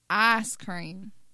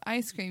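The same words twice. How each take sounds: First: It is said in a Southern accent. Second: It is said in a standard, non-Southern accent. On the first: "like in Alabama" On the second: "You don't have ice cream"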